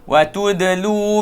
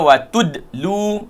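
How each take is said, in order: First: The vowel is lengthened before a glottal stop. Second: The vowel is short with no glottal stop. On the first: The speaker calls it right. "situ ada mat, ada hamzah situ tu" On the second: The speaker calls it wrong. "jangan baca watudlu, ha, itu salah"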